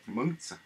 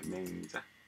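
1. 중국식 음절로 meng-tsu라고 발음해요. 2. 한국식 음절로 maeng-ja라고 발음해요. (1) "중국식 발음은 달라요" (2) "이거 한국식 발음이고"

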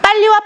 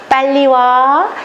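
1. 날카롭고 짜증 섞인 말투로 말하고 있어요. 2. 부드럽고 다정한 말투로 말하고 있어요. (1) "그러면 왜 화를 내세요?" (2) "이러면 괜찮아요. 친절하게 말하면"

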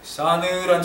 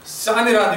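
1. 첫 자음이 약하고 부드러워요. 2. 첫 자음이 강하고 힘이 있어요. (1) "힘이 없는 거야" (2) "이렇게 해야 되는데"

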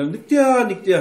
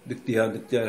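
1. 과장되고 극적인 표현으로 말합니다. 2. 감정 표현이 거의 없이 담담하게 말합니다. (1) "과장된 말투" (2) "담담하게"

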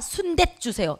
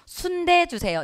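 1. 두 번째 자음은 경음이에요. '때'처럼요. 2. 두 번째 자음은 평음이에요. '대'처럼요. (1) "이러지 않잖아요" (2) "이렇게 말하잖아요"

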